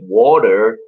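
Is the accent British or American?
American. It is said with an American accent.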